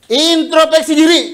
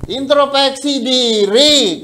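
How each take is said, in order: First: Louder, higher punch on Introspeksi diri; emphatic call. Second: "Introspeksi diri" drawn out very slowly, syllable by syllable; slow repeat. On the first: Preacher commanding the congregation to look inward, a loud high call. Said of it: "kuncinya itu aja". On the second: Preacher repeating the key to the congregation, very slow and deliberate. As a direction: lean on each syllable of "Introspeksi diri", unhurried. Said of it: "Nggak usah panjang-panjang". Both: Acted.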